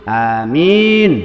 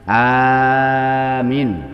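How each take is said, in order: First: The second vowel is held long. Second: The first vowel is held long. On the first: It means safe. "kalau minnya yang panjang" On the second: It means honest. "kalau alifnya itu dibaca panjang"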